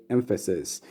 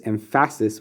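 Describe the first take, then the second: First: Said in the usual way. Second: "emphasis" as em-FASS-is; wrong stress. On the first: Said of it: "we say emphasis". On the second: Shown as a demonstration. Teacher showing what no one says, "emphasis" misstressed on the middle syllable. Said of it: "no one says emphasis".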